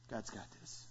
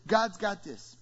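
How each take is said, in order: First: God's got this breathed very softly, almost a whisper; hushed refrain. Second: Said in the usual way. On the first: Shown as a demonstration. Pastor repeats his refrain hushed for the congregation. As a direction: drop the voice to nearly nothing on God's got this.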